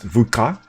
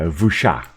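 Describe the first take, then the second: First: The consonant is a click sound. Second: The consonant is plain, without a click. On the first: This is how Xhosa speakers would say it. "if this were in an area where Xhosa is the main African language, that would have been pre pronounced" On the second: This is how it is said in this area. "in this case, it's not uh, Xhosa, so it is uh"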